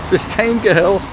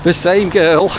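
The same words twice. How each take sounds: The two takes are said the same way.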